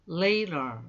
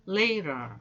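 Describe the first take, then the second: No difference in how they are said.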